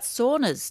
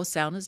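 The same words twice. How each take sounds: First: "saunas" with an AW vowel in the first syllable; saunas as SAW-nuhz. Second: "saunas" with an OW vowel in the first syllable; saunas as SOW-nuhz. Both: Shown as a demonstration. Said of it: "depending on how you prefer to pronounce it".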